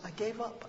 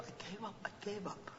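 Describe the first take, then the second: First: Said in the usual way. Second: Fading. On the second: Acted.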